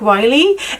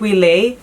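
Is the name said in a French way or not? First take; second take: not French; French. First: The name is said without a French pronunciation. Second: The name is said with a French pronunciation. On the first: The speaker calls it right. "I think this time I said it right" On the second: The speaker calls it wrong. "because I thought it's a, a French pro pronunciation, but it wasn't"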